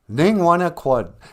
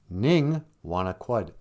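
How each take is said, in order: First: It is said in a mad, fed-up tone. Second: It is said in a calm, neutral tone.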